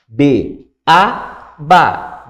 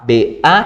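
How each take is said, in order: First: Teacher's demonstration closing on ba; resolved syllable drill. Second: B then A left hanging; unresolved spelling cue on A; tension created. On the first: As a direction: spell B, lift A, resolve on ba. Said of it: "do seguinte modo". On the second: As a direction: leave A open for the pupil to resolve. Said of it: "criou a tensão". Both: Shown as a demonstration.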